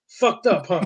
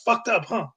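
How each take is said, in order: First: It is read in the speaker's ordinary voice. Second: It is read in a put-on character voice.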